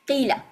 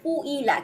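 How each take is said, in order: First: The first syllable is a plain 'ki' sound. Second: The first syllable has a rounded 'kwi' sound. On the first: This is the easier form that Arabs actually use. "So কুইলাকে তারা কি করে নিচ্ছে" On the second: This is the form the regular rules would give. "হওয়ার কথা হচ্ছে কুইলা"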